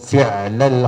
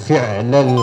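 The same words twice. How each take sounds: Both takes have the same delivery.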